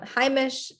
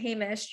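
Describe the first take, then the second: First: It is said the Hasidic Yiddish way. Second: It is said the secular way. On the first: The speaker likely grew up speaking Yiddish natively. "more like the modern day Hungarian Yiddish the pronunciation among Yiddish speakers" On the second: The speaker likely comes from a secular background. "you're probably coming from a more secular background"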